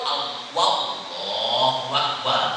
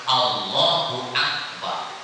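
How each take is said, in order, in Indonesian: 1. Ditambahkan bunyi w sebelum Akbar. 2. Tidak ada bunyi w sebelum Akbar. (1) "Ditambahkan waw" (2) "Jadi harus Allahu Akbar"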